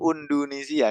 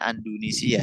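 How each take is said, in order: First: The word begins with an 'u' vowel. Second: The word begins with an 'a' vowel. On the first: The speaker calls it wrong. "Nggak enak kalau undu ya" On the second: The speaker calls it right. "Bacanya Andunisia jadinya"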